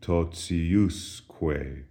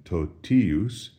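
First: Totiusque with an S slipped between T and I, "tot-si-US-kwe"; softened TI. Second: Totius with TI said as a plain "tee"; hard T. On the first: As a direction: say totiusque slowly, TI as "tsi", accent on US. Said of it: "it softens. We have an S in between the T and the I". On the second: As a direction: say totius slowly, stressing TI with a clean T. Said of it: "the pronunciation of T I is no longer T, as in totius". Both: Shown as a demonstration.

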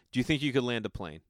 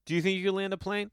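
First: Said in the usual way. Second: Asked again much higher. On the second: Shown as a demonstration. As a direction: repeat "Do you think you could land a plane?" pitched way up, pressing. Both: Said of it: "this is what I would ask them".

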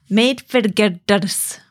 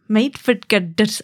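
First: "made for girders" very slowly in faked Scottish, straining at the Rs; slow, laboured Scottish attempt at "made for girders"; attempted Scottish accent. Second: "made for girders" slowly in bad Scottish, Rs not rolled; second go at Scottish "girders", the R slipping away; half-hearted Scottish "made for girders", slightly drawn out; failed Scottish accent. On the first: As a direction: try rolling the Rs in "girders", drawn out, badly Scottish. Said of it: "I can't roll my eyes". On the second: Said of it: "I can't do it". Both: Shown as a demonstration.

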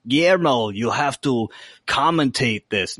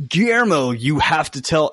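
First: A light try at a bossy vampire master; Nandor's voice. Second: Said in the usual way. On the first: Retold or imitated. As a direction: give the order, only hinting at his voice. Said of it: "I wanna talk in Nandor's voice". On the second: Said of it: "and they're like".

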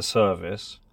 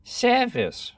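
First: Said in the usual way. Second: "service" high with an open SAIR-vis vowel; "service" in clipped royal RP; old RP service. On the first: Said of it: "for service". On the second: Shown as a demonstration. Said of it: "service" for service".

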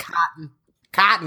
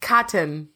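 First: COTTON with second vowel swallowed into the N; Southern one-syllable COTTON. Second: COTTON with a vowel kept in the second syllable; two-syllable COTTON. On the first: Co-host copies the Southern friends, clipped-vowel COTTON. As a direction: say COTTON as cot'n, no vowel before the N. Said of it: "I think that's how you say it". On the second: Co-host practices as friends listen, two-syllable COTTON. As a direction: say COTTON with both syllables sounded. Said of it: "not saying it the same way". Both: Shown as a demonstration.

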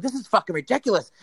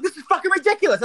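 First: Mild mock yell, a bit higher; retold screaming. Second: High falsetto screech of outrage; demonstrated screaming. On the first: Customer going off in the pharmacy, mild retold screaming. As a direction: tell of screaming without really screaming. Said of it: "I'm going off screaming". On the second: Shown as a demonstration. Showing how they screamed in the pharmacy, high screech. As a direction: screech it far above normal pitch. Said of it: "how you actually screamed".

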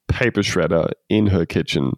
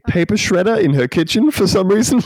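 First: Said in the usual way. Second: Words breaking into real laughter, pitched up; can barely get it out for laughing. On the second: Real, not acted. Podcaster describing a silly ad to co-hosts, laughing.

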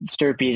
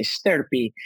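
First: Said in the usual way. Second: Stirpy said with a thick Italian accent. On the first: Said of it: "put on a nice, thick Italian accent and say Stirpy". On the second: Shown as a demonstration. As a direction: roll Stirpy like an Italian would. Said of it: "you gotta put on a nice, thick Italian accent".

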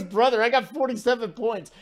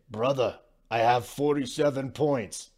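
First: Laughing, higher mock Serbian accent; hammed-up Serbian accent through a laugh; Jokic accent. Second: A badly faked Serbian accent, barely shifted; half-hearted Serbian accent, lightly mocking; horrible Jokic accent. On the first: Host retelling Jokic's taunt to Gobert, laughing mock Serbian accent. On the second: Host retelling Jokic's taunt to Gobert, bad Serbian accent. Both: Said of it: "that's a horrible Jokic accent".

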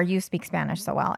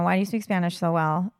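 First: "so well" left level, no questioning rise; said as a statement. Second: "so well" rising like a question; asked as a question. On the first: Retelling a stranger's usual remark to the co-host, as a statement. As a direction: state it, without lifting "so well". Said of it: "It's sometimes a statement". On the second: Retelling a stranger's usual remark to the co-host, as a question. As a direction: lift the end on "so well" to ask. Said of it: "sometimes a question". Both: Shown as a demonstration.

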